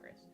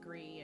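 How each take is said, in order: First: The word ends with an s sound. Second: The word ends on a vowel, no s. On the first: This is how the speaker says the name. "but I call it Gris" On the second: This is another way people say the name. "it can be pronounced like Gree and other things"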